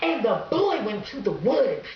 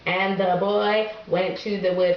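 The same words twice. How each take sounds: First: It is read dramatically, with lots of expression. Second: It is read plainly, without drama.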